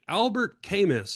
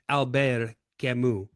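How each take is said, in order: First: The name is said with an English-style pronunciation. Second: The name is said with a French-style pronunciation. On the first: The speaker calls it wrong. "I used to pronounce it" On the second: The speaker calls it right. "straighten me out with"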